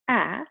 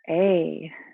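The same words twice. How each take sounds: First: It is the short a sound, as in 'cat'. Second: It is the long a sound, as in 'day'. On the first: "our short vowel A says A" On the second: "our long vowel A says A"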